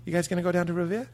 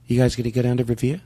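First: Fast Boston question about Revere; Boston accent. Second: "Revere" said Boston-style; Boston accent. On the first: Acted. Coach asks in a Boston accent. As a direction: ask like a local. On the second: Shown as a demonstration. Student echoing in a Boston accent. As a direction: echo the coach's Boston line. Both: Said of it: "practice our Boston accent".

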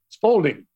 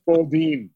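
First: Spalding said the Brooklyn way, Spoaldin; Spalding with a round Brooklyn aw. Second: Spalding again with the Brooklyn aw, Spoaldin; Spalding drawn out the local way. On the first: A Brooklyn kid saying Spalding the local way. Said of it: "We called it Spalding". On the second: The host teaching Peter to say Spalding like Brooklyn. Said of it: "You gotta say Spalding". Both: Shown as a demonstration.

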